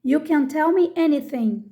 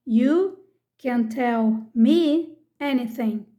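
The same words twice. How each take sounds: First: Said in the usual way. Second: Slow, deliberate second reading; slow repeat. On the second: Shown as a demonstration. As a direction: repeat slowly, word by word for learners. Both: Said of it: "Vamos ver alguns exemplos aqui".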